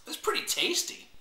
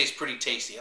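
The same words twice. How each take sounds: First: "It's pretty tasty" squeaked much higher in delight. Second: Said in the usual way. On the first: Real, not acted. Vlogger tasting wine on camera, pleased high squeak. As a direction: pitch "It's pretty tasty" way up, tickled by the flavor. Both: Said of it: "I like when I say it's pretty tasty".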